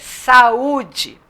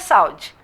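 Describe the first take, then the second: First: The two vowels are said in separate syllables. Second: The two vowels glide together in one syllable. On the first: The speaker calls it right. "É saúde" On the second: The speaker calls it wrong. "Eu não posso falar saúde"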